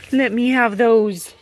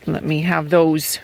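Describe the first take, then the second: First: Higher, louder, slower coax to the hen; coaxing pet voice. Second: Said in the usual way. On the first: Real, not acted. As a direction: sweet-talk the hen out of her eggs.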